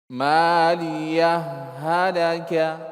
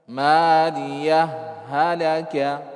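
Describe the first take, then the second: No difference in how they are said.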